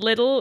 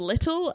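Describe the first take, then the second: First: The middle consonant sounds like a soft d. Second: The middle consonant sounds like a clear t. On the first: The speaker's accent has picked up a Canadian habit. "And little instead of" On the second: This is the speaker's original accent. "instead of little"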